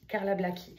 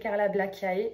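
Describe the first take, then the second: First: The ending is said with one vowel sound. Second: The ending is said with two vowel sounds. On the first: The speaker calls it right. "on ne prononce pas le A et le E" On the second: The speaker calls it wrong. "j'ai toujours dit Carla Blackiae parce que ça s'écrit Carla Blackiae"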